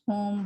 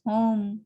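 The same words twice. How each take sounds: First: "home" with one pure o vowel; Indian pronunciation. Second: "home" with a gliding o diphthong; British pronunciation. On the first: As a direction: say "home" as a steady "hohm", no glide. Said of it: "We pronounce home". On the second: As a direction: say "home" as "huh-oom" in one syllable. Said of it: "while it's home". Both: Shown as a demonstration.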